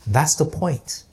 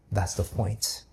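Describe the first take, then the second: First: Said in the usual way. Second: Soft, low and gentle; quiet. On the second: Retold or imitated. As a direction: say it quietly, choked up. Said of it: "nodded and quietly said".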